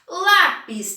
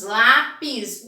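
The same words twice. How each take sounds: First: Said in the usual way. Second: "Lápis" in two pieces, lá... pis; split into syllables. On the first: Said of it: "tem quantas letras?". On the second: Shown as a demonstration. Teacher asking how many pieces, "Lápis" split as lá... pis. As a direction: break "Lápis" evenly after lá. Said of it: "Quantos pedaços?".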